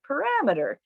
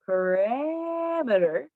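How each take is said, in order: First: The word is said quickly. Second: The word is said slowly. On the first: "or quickly" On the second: "You can say it slowly"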